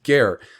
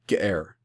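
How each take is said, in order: First: The word runs straight through without a break. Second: A slight breathy break splits the word. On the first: "instead of just straight ger" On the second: "just the slightest breathy break, and then the dominant root"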